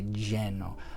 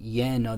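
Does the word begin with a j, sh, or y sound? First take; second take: j; y. First: The word begins with a j sound. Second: The word begins with a y sound. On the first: This is how some southern countries say it. "it's like a J sound" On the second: This is the most common, safest pronunciation. "it's normally Y sound"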